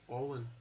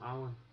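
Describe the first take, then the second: First: The name starts with an 'o' sound. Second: The name starts with an 'a' sound. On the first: The speaker calls it wrong. "you don't say Olin" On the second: The speaker calls it right. "just call him Alan"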